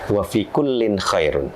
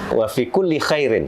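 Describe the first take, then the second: First: The words end with -in and -un sounds. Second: The words end with -i and -in sounds. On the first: In every believer, strong or weak, there is good. The speaker calls it right. "aslinya setelah saya cek di hadisnya itu yang benar" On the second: Strive in every good deed for what benefits you. The speaker calls it wrong. "saya bacanya wa fi kulli khairin"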